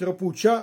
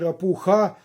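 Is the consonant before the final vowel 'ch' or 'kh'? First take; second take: ch; kh. First: The consonant before the final vowel is 'ch'. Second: The consonant before the final vowel is 'kh'. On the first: "чому називають рапуча" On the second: "а не якось чи рапуха"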